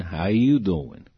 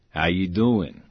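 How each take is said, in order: First: Slow, drawn-out "How you doing?"; knowing question. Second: Said in the usual way. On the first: Retold or imitated. Director checking on injured actor, slow and knowing. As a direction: stretch the question out pointedly. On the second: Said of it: "And he goes".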